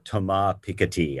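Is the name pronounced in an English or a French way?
French. The name is said with a French-style pronunciation.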